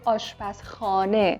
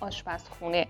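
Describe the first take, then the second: First: The second-to-last vowel is an open 'a' sound. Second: The second-to-last vowel is a rounded 'u' sound. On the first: This is the formal, written form. "رسمیش میشه آشپزخانه" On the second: This is the everyday spoken form. "تو گفتار روزمره ما میگیم آشپزخونه"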